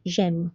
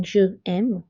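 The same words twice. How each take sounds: First: "j'aime" as one syllable, "zhem"; contracted form. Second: "je aime" as two words, "zhuh em"; wrong uncontracted form. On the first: Teacher showing the apostrophe's effect, "j'aime" joined. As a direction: run j straight into the vowel in "j'aime". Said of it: "we say". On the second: Teacher showing what not to say, "je aime" unjoined. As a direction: keep the vowel of je before aime in "je aime". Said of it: "Instead of saying". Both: Shown as a demonstration.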